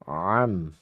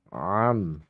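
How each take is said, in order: Both takes have the same delivery.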